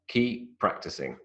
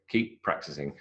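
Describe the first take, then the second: First: Only one p sound is pronounced. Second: Only one p sound is pronounced.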